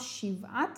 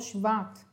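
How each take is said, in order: First: The word begins with 'shiv', as shiv-at. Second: The word begins with 'shva', as shva-at. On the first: The speaker calls it right. "יש לומר שבעת" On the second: The speaker calls it wrong. "ולא שבעת"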